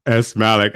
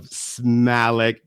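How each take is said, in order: First: "S Malik" with S spoken as the letter "ess"; "S Malik" with the initial kept separate from the surname; corrected name. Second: "Smalik" run together as one word; "Smalik" as a single blended name, no separate letter S; mispronounced name. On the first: Shown as a demonstration. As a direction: repeat "S Malik" as two parts, ess and Malik. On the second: Real, not acted. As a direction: say "Smalik" with S fused onto the M. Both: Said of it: "It's actually S Malik Enterprises".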